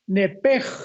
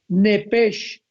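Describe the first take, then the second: First: The word ends with a rough h sound. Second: The word ends with an sh sound. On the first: "se pronuncia nepej con la J al final" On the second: "Se escribe con S de Samuel, H al final"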